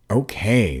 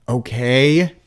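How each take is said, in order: First: Grudging okay. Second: Loud, high yell of okay; shouted okay, rising at the end. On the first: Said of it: "as if it were a big inconvenience". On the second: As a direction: yell it into the ground. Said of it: "I yelled at the dirt". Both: A narrator's reading.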